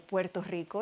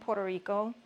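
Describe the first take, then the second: First: The name is said with Spanish sounds. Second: The name is said with English sounds.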